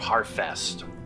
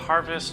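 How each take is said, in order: First: The middle consonant is an F sound. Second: The middle consonant is a V sound. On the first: The speaker calls it right. "I should really be pronouncing it Harfest" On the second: The speaker calls it wrong. "I just want to pronounce it Harvest"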